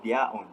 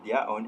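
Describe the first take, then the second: First: "their own" with no r between the words; "their own" without the linking r sound. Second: "their own" with an r sound inserted between the words; "their own" run together on a linking r; received pronunciation linking r. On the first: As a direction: keep "their own" separate, dropping the r. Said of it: "did not insert the r sound". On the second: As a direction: join "their own" through a clear r. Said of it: "with the insertion of r sound". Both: Shown as a demonstration.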